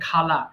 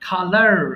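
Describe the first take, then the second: First: The word ends without an r sound. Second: The word ends with a clear r sound. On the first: "British ইংলিশে আমরা follow করে বলি খালা" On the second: "American English, you have to take a raw sound"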